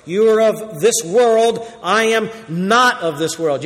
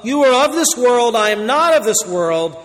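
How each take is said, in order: First: "this" and "not" leaned on, slow; slow emphatic quote. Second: Solemn proclaimed warning. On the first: Shown as a demonstration. Preacher re-reading Jesus' words to explain them, slow and weighty. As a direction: weigh each word, stress "not". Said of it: "The second part explains the first part". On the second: Acted. First reading of same quote.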